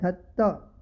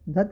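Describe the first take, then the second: First: The t sound is held long and doubled. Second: The t sound is short and single. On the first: The speaker calls it right. "ध आधा त और पूरा त है" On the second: The speaker calls it wrong. "धत्त नहीं कहना है"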